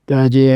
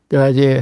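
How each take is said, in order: No difference in how they are said.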